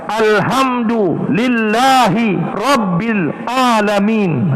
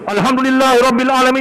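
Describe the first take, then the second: First: It is broken into separate words with breaks. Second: It runs together as one long unbroken stream. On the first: Each part can be understood separately. "Jadi kita pecahkan" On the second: "ya panjang tu"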